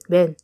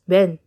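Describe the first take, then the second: First: The word is said fast, sounding like one syllable. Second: The word is said fast, sounding like one syllable.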